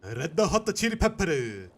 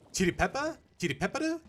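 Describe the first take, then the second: First: Put-on slow, loud Japanese accent call. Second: Put-on higher questioning Japanese accent. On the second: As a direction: ask it twice in a Japanese accent. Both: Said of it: "Japanese they do pronounce the R".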